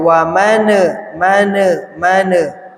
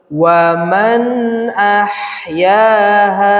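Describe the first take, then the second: First: The n sound bounces and repeats. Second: The n sound is said once, clearly. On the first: The speaker calls it wrong. "jangan sampai gini bacanya" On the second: The speaker calls it right. "Jelas bunyi an"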